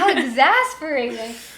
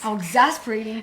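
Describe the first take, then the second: First: It sounds like an excitable teenage girl. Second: It is attempted in a deeper, manlier voice.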